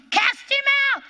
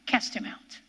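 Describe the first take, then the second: First: High, loud rebuke; commanding shout. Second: Hushed, breathless rebuke; whispered command. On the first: Preacher repeating the rebuke, commanding shout. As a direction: bark the command at the devil. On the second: Preacher echoing the rebuke to the congregation, whispered. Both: Acted.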